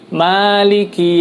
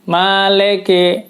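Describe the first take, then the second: First: The vowels are clear 'ee' sounds. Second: The vowels are 'eh' sounds. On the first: The speaker calls it right. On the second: The speaker calls it wrong.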